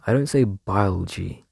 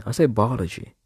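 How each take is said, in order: First: "biology" squashed into bile-jee, mocking the accusation; mocking pronunciation. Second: "biology" said as pal-uh-jee, her own way, falling at the end; own pronunciation. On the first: Mocking the friend who says she pronounces it weird: squashed bile-jee. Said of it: "I do make the movements that pronounce the O". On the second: Telling viewers how she actually says it: pal-uh-jee, falling. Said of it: "Who says biology?". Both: Shown as a demonstration.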